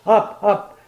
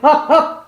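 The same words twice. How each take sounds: First: The command is said mildly, with little force. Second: The command is said sharply, with strong force. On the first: Only a small adjustment is wanted. "I just threw a little bit" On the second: A large adjustment is wanted. "I gave her a hell of a up"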